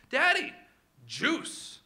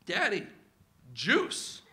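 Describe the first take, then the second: First: High squeaky "Daddy", then a small lilting "juice"; more insistent little-kid plea; toddler voice. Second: A lightly voiced toddler asking, juice lilting up; simple little-kid plea. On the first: Retold or imitated. Two-year-old asking dad again for juice, squeakier. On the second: Two-year-old asking dad for juice, small rising plea.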